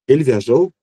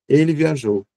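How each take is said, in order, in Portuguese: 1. A entonação sobe no final. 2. A entonação começa alta e cai no final. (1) "a gente vai ter que aumentar essa entoação" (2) "na afirmação, a curva desce"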